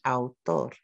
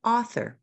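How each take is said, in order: First: "Autor" in two Spanish syllables, au-TOR; Spanish syllable demo of "Autor"; Spanish pronunciation. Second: "Author" in two English syllables, AU-thor; English syllable demo of "Author"; English pronunciation. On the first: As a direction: say "Autor" with the stress on the last syllable. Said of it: "does it have in Spanish". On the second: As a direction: say "Author" with the stress on the first syllable. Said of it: "How many in the English?". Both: Shown as a demonstration.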